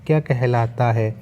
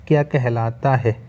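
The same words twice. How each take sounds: The two takes are said the same way.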